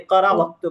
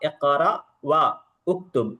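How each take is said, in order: First: The words wa and uktub merge into waktub. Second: The words wa and uktub are said separately. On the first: "కలిపి చదువుతున్నప్పుడు వక్తుబ్ అంటాము" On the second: "ఉక్తుబ్ అని అంటాము"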